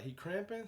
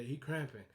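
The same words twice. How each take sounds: First: He cramping? asked with a rising question tune; He cramping? pitched up like a worried question; surprised question. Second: He cramping. as a dropped matter-of-fact answer; flat confirmation. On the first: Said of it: "And he was like". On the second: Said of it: "So Ryan was like". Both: Retold or imitated.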